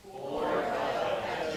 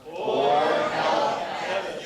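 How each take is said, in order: First: Slow, restrained choral repeat; half-hearted group recital. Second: Loud, very drawn-out chant; wholehearted group recital. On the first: Congregation repeats the preacher's point, half-hearted. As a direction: recite it dutifully and slowly together. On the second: Congregation repeats after being urged, loud and emphatic. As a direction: belt it out slowly, really meaning it. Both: Real, not acted. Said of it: "You can really say that if you wanted to".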